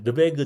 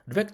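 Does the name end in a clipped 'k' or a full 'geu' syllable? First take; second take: full geu; clipped k. First: The name ends with a full 'geu' syllable. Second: The name ends with a clipped 'k' sound. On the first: "르베그라고 안 해서" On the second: "르벡이라고 보통 발음하는데"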